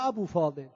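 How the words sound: The name is said with an Arabic accent. "به همون لهجه خودشون میگن ابو فاضل"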